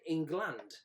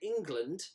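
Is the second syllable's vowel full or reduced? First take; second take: full; reduced. First: The second syllable is a full 'land'. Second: The second syllable has a weak, reduced vowel. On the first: This is not how people say it. The speaker calls it wrong. "you don't say England" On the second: This is how people normally say it. The speaker calls it right. "when you say England"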